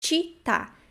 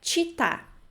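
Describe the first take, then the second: First: The first consonant is a 'ch' sound. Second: The same.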